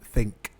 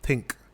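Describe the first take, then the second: First: The word begins with a th sound. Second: The word begins with a plain t sound. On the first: "rather than think, the th" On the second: "you would say tink"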